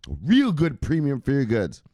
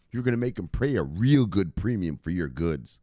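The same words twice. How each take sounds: First: Higher, louder, insistent; emphatic repeat. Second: Said in the usual way. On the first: Real, not acted. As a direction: hammer the point home.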